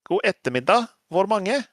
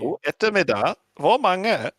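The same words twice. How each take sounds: First: It is said without a German accent. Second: It is said with a German accent.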